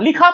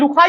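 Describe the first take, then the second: First: The first vowel is a short i. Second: The first vowel is a short u. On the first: The speaker calls it right. "लाम पर जेर ही पढ़ा" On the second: The speaker calls it wrong. "आपने लुखा या लखा नहीं पढ़ा"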